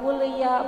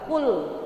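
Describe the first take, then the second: First: The final l runs into an added vowel. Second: The final l ends cleanly with no vowel. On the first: The speaker calls it wrong. "bukan kuliah, bukan begitu" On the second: The speaker calls it right. "tapi kul. Ya lam matinya harus jel, jelas"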